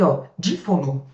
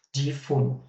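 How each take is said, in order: First: Said in the usual way. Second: "Dífono" said lower and softer, each syllable clear; quiet spoken term. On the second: Shown as a demonstration. Teacher repeating the new term quietly for students. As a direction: say "Dífono" softly and carefully. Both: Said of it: "Vamos colocar o conceito".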